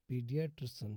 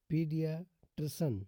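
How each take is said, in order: First: Said in the usual way. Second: "पीडियाट्रिशन" with a pause before "ट्रिशन"; split in two parts. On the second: Shown as a demonstration. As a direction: sound out "पीडियाट्रिशन" firmly in two chunks. Teacher models word in two parts.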